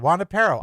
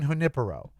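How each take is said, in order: First: The first syllable sounds like 'Juan'. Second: The first syllable does not sound like 'Juan'. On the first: It sounds like Juan and his dog. The speaker calls it wrong. "Juanipero means Juan and his dog" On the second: It is the name of a person. The speaker calls it right. "you mean Junipero"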